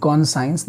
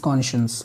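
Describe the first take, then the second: First: Conscience said as con-science, with a clear "science" ending; wrong pronunciation. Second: Conscience said as kon-shens, with a soft sh sound; correct pronunciation. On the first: Teacher warns students not to read it like this, conscience as con-science. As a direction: demonstrate the wrong reading conscience as kon-sai-ens. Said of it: "please कॉन्साइंस मत पढ़िएगा". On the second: Teacher corrects the students' reading, conscience as kon-shens. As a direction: show the right way, conscience as kon-shuns. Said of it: "This is not conscience". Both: Shown as a demonstration.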